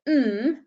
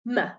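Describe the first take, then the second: First: The m sound is held with no vowel after. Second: The m sound is followed by a short uh vowel. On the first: The speaker calls it right. "We pronounce them without the uh on the end" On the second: The speaker calls it wrong.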